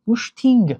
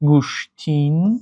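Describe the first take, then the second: First: The word ends in an added ng. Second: The word ends in an added n. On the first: "аллакай ду овоз илова шуд" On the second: "баъзе нафарон талаффуз мекунанд"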